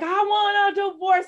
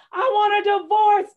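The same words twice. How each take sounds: First: High, loud desperate cry; screamed quote. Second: Much higher, louder cry of I want a divorce; screamed quote. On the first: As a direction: yell it in the street. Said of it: "that's all I could get out". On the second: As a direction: shout it out in despair. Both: Retold or imitated.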